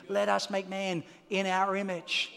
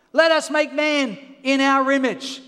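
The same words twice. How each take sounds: First: Softer, lower reading of the verse; quiet scripture. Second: Loud declaration of the verse; preached scripture. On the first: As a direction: say it gently, reflective. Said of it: "quiet restated scripture". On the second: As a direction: proclaim it to the room. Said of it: "loud preached scripture". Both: Real, not acted.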